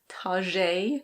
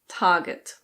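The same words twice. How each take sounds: First: It is said in a mock French style. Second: It is said in British English without the R. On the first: "that makes it sound a little bit more sophisticated" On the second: "in British English, this is Target"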